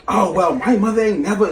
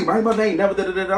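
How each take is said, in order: First: Corinne quoted. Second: Mocking Corinne. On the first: Retold or imitated. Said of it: "Corinne like". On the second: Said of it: "now she's mad 'cause she's wrong".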